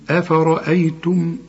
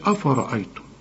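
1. الهمزات بتتنطق بحركة خفيفة ورفيعة. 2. الهمزات بتتنطق بحركة تقيلة ومفخمة. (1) "قل لي أفرأيتم" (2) "لكن ما تقولش أفرأيتم ... الهمزة الأولى خطأ والهمزة كمان الثانية خطأ"

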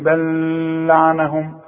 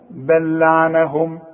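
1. اللام المشددة تُنطق مع غنّة. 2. اللام المشددة غير مغنّاة، دون غنّة. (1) "مش تفضل تقول لي بل لعنهم وتقول لي اصلها عليها شده" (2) "حوصل الكلمتين اقول بل لعنهم، يبقى عندي لام واحده بس"

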